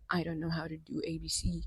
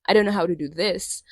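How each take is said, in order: First: Breathy whispered quote; whispering. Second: Said in the usual way. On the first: Retold or imitated. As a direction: whisper the excuse mockingly. Mocking self-doubt quote.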